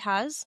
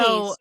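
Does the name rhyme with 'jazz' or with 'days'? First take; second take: jazz; days. First: The vowel is short, like in 'has'. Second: The vowel is long, like in 'days'. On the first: The speaker calls it wrong. "Am I pronouncing that correctly?" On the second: The speaker calls it right. "It's actually Hayes"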